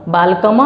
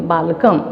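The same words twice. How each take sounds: First: बालकम with an extra a after the m, "balkama"; wrong final vowel. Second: बालकम closed on m, no vowel after it; lower-pitched बालकम, final a left off; correct halant ending. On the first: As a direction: sound an open vowel at the end of बालकम. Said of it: "बालकम नहीं बोलेंगे". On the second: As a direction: end बालकम with the lips shut on m. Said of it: "स्वर की मात्रा को उच्चारित हम नहीं करेंगे". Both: Shown as a demonstration.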